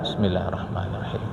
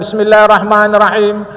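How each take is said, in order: First: The phrase is said quietly, under the breath. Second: The phrase is said loudly and clearly aloud. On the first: Listeners remain obliged to answer the greeting. The speaker calls it right. "bismillahnya pelan" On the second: Listeners are no longer obliged to answer the greeting. The speaker calls it wrong. "kalau kita kuatkan"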